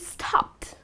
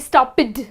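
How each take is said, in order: First: The ending is said as a short 't' sound. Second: The ending is said as an extra 'id' syllable. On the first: The speaker calls it right. "it has to end with the T sound" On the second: The speaker calls it wrong. "you're not going to say stopped"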